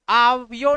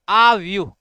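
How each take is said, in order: First: The word ends in a plain 'yo' sound. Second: The word ends in a long 'yooh' sound. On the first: The speaker calls it wrong. "आव्यो नहीं" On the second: The speaker calls it right.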